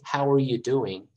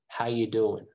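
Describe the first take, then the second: First: Every word is said, including 'are'. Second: The word 'are' is dropped and sounds run together. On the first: "You can say" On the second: "a lot of people just say"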